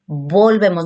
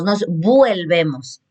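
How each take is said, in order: First: "Volvemos" said with a plain o; "Volvemos" modelled as the right form; correct form. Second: "vuelvemos" said slowly with a wrong ue, as a mistake; "nos vuelvemos" drawn out as the error; wrong form. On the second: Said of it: "Cambia totalmente". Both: Shown as a demonstration.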